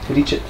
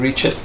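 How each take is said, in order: First: The word is said with a Slovenian accent. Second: The word is said with an English accent. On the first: The speaker calls it right. "It's actually ricet" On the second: The speaker calls it wrong. "You said it with English accent"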